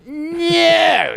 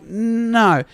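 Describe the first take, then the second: First: Very high, drawn-out no; outraged refusal. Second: First, more restrained no; firm refusal. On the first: Tenant rejecting Tuesday's visit too, high outraged refusal. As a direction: wail the refusal in exaggerated outrage. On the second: Tenant turning down Monday's return visit, restrained refusal. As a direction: refuse firmly without shouting. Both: Retold or imitated.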